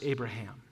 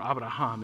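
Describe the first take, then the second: First: The name is pronounced the English way. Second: The name is pronounced the Hebrew way.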